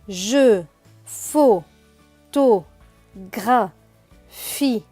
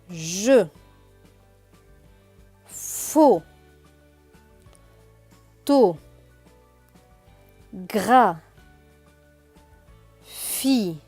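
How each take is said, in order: First: It is read more quickly, syllables run together. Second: It is read slowly, syllable by syllable. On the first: "plus rapidement" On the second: "tout doucement"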